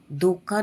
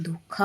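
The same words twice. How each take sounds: First: धोखा with k unaspirated, dhoka; no puff after k in धोखा; wrong pronunciation. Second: धोखा with breath after k, dhokha; correct pronunciation. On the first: Teacher showing the error, धोखा as dhoka. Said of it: "नहीं होता". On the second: Teacher correcting the word, धोखा as dhokha. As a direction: puff air on kh in धोखा. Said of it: "होता है". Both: Shown as a demonstration.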